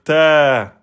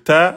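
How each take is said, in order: First: The vowel is long, held two beats. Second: The vowel is short, held one beat. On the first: "passer de un temps en deux temps" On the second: "au lieu de dire ta"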